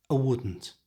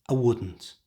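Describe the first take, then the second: Both takes have the same delivery.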